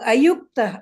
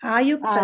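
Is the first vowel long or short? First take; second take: short; long. First: The first vowel is short. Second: The first vowel is long. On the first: The speaker calls it right. "ಅದು ಅಯುಕ್ತ" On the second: The speaker calls it wrong. "ಆಯುಕ್ತ ಅಲ್ಲ"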